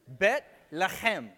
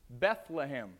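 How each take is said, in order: First: It is said as two Hebrew words. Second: It is said as one anglicized word. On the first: "You get bet lechem" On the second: "to our ears, we're used to hearing it pronounced like this"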